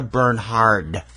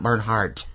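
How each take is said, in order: First: The name ends without a final t sound. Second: The name ends with a final t sound. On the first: The speaker calls it right. "It's Sandra Bernhard" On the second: The speaker calls it wrong. "not Bernhardt. There's no T"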